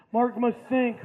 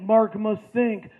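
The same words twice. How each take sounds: First: Said in the usual way. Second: Slow, halting dumb-guy inner voice; dim jock thinking. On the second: Pretend. Narrator imagines Mark's slow brain thinking, slowly. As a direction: drag it out like the cogs are turning.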